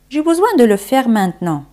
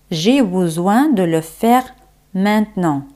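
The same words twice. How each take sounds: First: Quick, connected repeat; fluent flowing French; natural-pace French model. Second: Unhurried teaching pace. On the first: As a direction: run it through without pauses. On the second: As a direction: model it carefully, pausing before "maintenant". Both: Shown as a demonstration. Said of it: "como se dice en francés".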